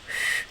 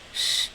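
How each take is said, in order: First: The sh is made with a curled-back tongue. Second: The sh is made with a flat tongue. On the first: "and retroflexed is sh" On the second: "English is sh"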